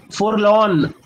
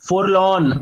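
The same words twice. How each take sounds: First: Forlorn said with a light tapped r; pronunciation demo. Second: Forlorn with a slight r sounded; light r pronunciation. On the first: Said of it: "observe the way I am pronouncing it". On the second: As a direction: pronounce a gentle r in Forlorn. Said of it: "हल्का सा आर भी pronounce कर रहा हूं मैं". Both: Shown as a demonstration.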